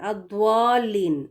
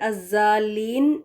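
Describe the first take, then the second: First: A w sound is blended into the word. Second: A z sound replaces the middle consonant. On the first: "वाव की साउंड को मिलाना नहीं है" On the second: "ज़ेड लगा के अज़्ज़ालीन, ये भी गलत है"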